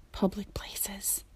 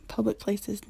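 First: Hushed, slow whisper. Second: Said in the usual way. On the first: Real, not acted. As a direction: whisper it like a secret. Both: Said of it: "I don't know why I'm whispering that".

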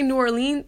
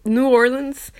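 First: "New Orleans" ending in a long ee, or-LEEN; "Orleans" with a stressed leen ending; alternative pronunciation. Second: Said in the usual way. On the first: Shown as a demonstration. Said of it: "Sometimes I say New Orleans". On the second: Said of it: "I say New Orleans more often".

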